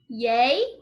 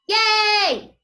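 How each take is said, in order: First: It sounds like a questioning rise. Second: It sounds loud, happy and excited.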